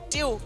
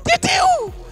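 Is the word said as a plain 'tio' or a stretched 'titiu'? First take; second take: plain; stretched. First: The word is said as a short, plain 'tio'. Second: The word is said as a stretched, shouted 'titiu'. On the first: A rich child is speaking. "Filho de rico em Moçambique diz assim" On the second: A poor child is speaking. "filho de pobre"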